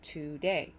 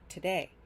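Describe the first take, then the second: First: Both syllables get equal, full stress. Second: The second syllable is stressed, first reduced. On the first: The speaker calls it wrong. "give both of these sounds equal stress" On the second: The speaker calls it right. "day is the stronger sound... That to is reduced to just t"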